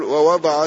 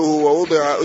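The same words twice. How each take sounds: First: ووضع as "wa-wada'a", all A vowels; active vowelling. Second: ووضع as "wa-wudi'a", U then I; passive vowelling. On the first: Teacher contrasting active with passive, ووضع as wa-wada'a. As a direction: say ووضع with a after w and after d. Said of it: "عرف أن الفعل مبني للمعلوم". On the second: Teacher citing the weak variant, ووضع as passive wa-wudi'a. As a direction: say ووضع with u after the second w and i after d. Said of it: "يعني هذه لغة ضعيفة". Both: Shown as a demonstration.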